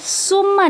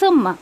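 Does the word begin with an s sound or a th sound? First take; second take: s sound; th sound. First: The first consonant is a hissing s sound. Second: The first consonant is a soft th sound. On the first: The speaker calls it wrong. "देखिए ये सुम्मा नहीं है, उस ऐसी आवाज़ नहीं आनी चाहिए इसमें" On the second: The speaker calls it right. "ज़बान की नोक को थोड़ा सा बाहर निकाल के आपको सादा करना है"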